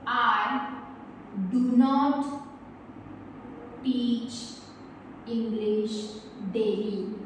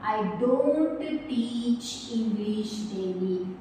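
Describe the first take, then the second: First: The words do not are said in full. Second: The words do not are contracted to don't. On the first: "डू नॉट teach" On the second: "short form"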